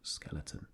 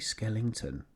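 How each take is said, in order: First: The middle syllable has a plain weak vowel. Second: The middle syllable has an 'ing' sound. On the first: The speaker calls it right. "it is actually skeleton" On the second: The speaker calls it wrong. "I say Skellington"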